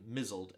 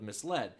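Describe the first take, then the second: First: It is said with a z sound, like 'mizzled'. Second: It is said with an s sound, like 'mis-led'. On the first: The speaker calls it wrong. "the mispronunciation of the word M-I-S-L-E-D" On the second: The speaker calls it right. "Instead of misled"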